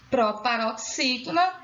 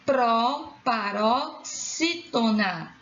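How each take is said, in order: First: Said in the usual way. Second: "proparoxítona" very slow, chunk by chunk; syllable by syllable. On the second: Shown as a demonstration. Teacher naming the classification, "proparoxítona" slowly broken up. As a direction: split "proparoxítona" into pro, paro, xí, tona. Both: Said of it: "a classificação da sílaba tônica".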